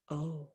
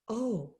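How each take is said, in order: First: A tiny, much softer "Oh,"; even smaller voice. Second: Small voice. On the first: Humbled giant answers the deer in a tiny, much softer voice. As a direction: shrink the "Oh," right down, barely there. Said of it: "said the giant in an even smaller voice". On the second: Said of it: "said the giant in a rather small voice". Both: Acted.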